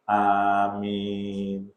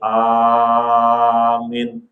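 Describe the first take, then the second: First: The second vowel is held longer than the first. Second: The first vowel is held longer than the second. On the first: It is the proper response to the prayer. The speaker calls it right. "aminnya yang benar. ... A dua, min empat" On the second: It means something different. The speaker calls it wrong. "Jangan kebalik. ... itu lain lagi tuh artinya"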